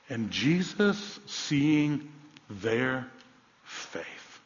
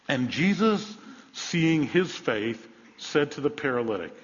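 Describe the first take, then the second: First: Slow, with "faith" breathed out in a whisper; the corrected reading, slow and hushed at the end; stress on their. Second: Slow, drawn-out reading of seeing his faith; deliberate slow scripture read; misquoted reading. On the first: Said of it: "it speaks in the plural of faith". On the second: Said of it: "Is that what it says? No". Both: Shown as a demonstration.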